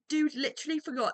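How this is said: It is said in a British accent.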